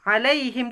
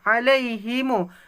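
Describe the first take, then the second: First: The word ends on a closed m sound. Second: The word ends with an added long u vowel. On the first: This is one traditional reading of the verse. "Mengikut Imam Imam Haf, alaihim tu dia ada bunyi him" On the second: This is another traditional reading of the verse. "alaihim tu akan tambah alif... dua harokat"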